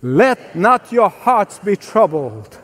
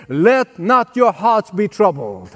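First: Slower still, said with the crowd; slow call-and-response scripture line; slow recitation. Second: Slow, deliberate recitation; slow scripture line for the congregation. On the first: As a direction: recite it together, drawn out. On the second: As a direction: say it slowly for them to repeat. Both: Shown as a demonstration. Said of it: "Can you say that with me?".

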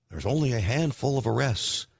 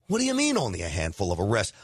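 First: Said in the usual way. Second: Fast, lower, scoffing disbelief with a rise on "mean"; incredulous echo. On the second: Real, not acted. Host scoffing at the arrest count, fast disbelief. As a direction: throw it back fast like you can't believe it.

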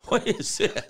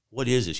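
First: Put-on much higher, startled child's voice; mock freaked-out kid. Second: Said in the usual way. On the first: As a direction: squeak it like a bewildered kid, playfully. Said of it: "they're freaked out". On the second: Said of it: "The kids are like".

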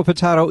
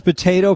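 First: "potato" with a middle ah; po-TAH-to pronunciation. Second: "potato" with a middle ay, said a bit higher; po-TAY-to pronunciation. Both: Shown as a demonstration. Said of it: "potato illegal".

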